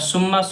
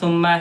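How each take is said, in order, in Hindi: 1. शब्द भारी स की आवाज़ से शुरू होता है। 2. शब्द नरम th की आवाज़ से शुरू होता है। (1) "सुम्मा स्वाद से पढ़ेंगे तो गलत हो जाएगा" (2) "से पढ़ना"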